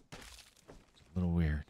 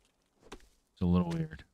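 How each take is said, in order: First: Quiet slow voice. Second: High-pitched, slow and drawn out. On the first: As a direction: murmur it slowly. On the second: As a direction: squeak it out slowly. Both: Shown as a demonstration. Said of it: "repeated in other voice".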